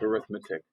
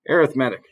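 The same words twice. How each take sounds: First: The stress is on the second syllable. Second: The stress is on the third syllable. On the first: The word is used as a noun. "It's not a noun like arithmetic" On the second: The word is used as an adjective. "Because it's an adjective"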